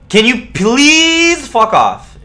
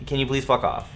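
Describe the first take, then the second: First: Drawn-out scream. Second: Said in the usual way. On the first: Real, not acted. Yelling at the duck.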